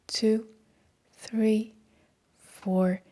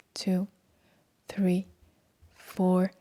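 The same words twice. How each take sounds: The two takes are said the same way.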